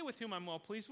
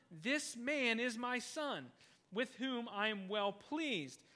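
First: Said in the usual way. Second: Slow solemn quote. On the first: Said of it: "It doesn't say". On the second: Retold or imitated. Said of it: "quoted voice from heaven".

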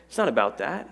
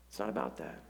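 First: Said in the usual way. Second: Much softer, falling repeat; soft echo. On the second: Shown as a demonstration. Pastor quietly repeating the point to the church. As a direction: drop it low to drive it home.

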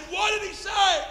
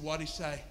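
First: High, loud, slowed shout; urgent shouted demand. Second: Said in the usual way. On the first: Retold or imitated. Preacher demands the translated answer, shouting. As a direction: cry out the question, stretching it.

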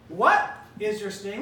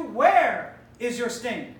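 First: What is your sting, hitting What; contrasting wrong question, What stressed. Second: Slow Where is your sting, leaning on Where; stress on Where. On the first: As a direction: put the weight on What. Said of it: "We didn't ask you". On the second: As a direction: dwell on Where slowly. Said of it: "We asked you". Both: Shown as a demonstration.

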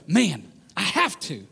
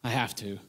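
First: Slow, sincere, determined; heartfelt committed conviction; earnest resolve. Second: Low, much softer reluctant groan; resentful low sigh of duty; grudging. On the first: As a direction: say it like a calling you embrace. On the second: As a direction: say it like a dreaded chore. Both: Shown as a demonstration. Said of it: "your tone changes".

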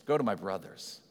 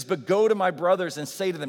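First: Lower, softer and gentle; quiet, tender voicing of Jesus; tender quote. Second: Louder, ringing proclamation; loud preacher's quote of the command; proclaiming the command. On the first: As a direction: say it like a loving brother. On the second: Acted. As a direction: announce it like a herald. Quoting Jesus's commission aloud.

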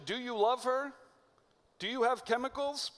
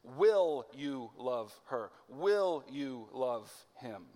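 First: "Do you love her?" pitched much higher, lightly airy, as a question about feelings; mock romantic question. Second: "Will you love her?" slow, with a weighty stress on "Will"; slow it right down and press on "Will". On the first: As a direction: lift the voice high and light on "love". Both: Shown as a demonstration. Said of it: "the question that they know".

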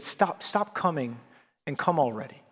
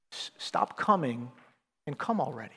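First: Put-on Jamaican accent. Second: Gentle plea. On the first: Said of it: "with his Jamaican accent". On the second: Real, not acted. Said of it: "I wanna say the same thing to some of us".

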